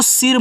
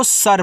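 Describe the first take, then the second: First: सिर read with a short i, like the Hindi word for head; the common mistake सिर with an i sound; wrong reading. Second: सर read with a short a sound, like sir; the correct सर, short a, no i; right reading. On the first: Teacher shows students the wrong reading सिर. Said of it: "इसको सिर मत पढ़ना". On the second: Teacher shows students the right reading सर. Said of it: "इसको सर पढ़ना". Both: Shown as a demonstration.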